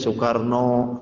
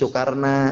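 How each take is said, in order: First: The name ends with an O vowel. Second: The name ends with an A vowel. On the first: "kalau Jawa O" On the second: "kalau orang Sunda"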